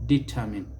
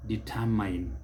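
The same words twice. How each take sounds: First: Determine as di-TUR-min; correct pronunciation. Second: Determine as di-tur-MINE; mispronunciation. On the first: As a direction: stress the second syllable of determine, ending "min". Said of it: "stress is on the second syllable". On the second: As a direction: rhyme the end of determine with "mine". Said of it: "it is never determine". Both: Shown as a demonstration.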